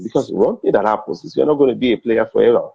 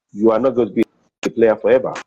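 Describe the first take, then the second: First: Said in the usual way. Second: A firm second take with "not" pressed; emphatic repeat. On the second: Shown as a demonstration.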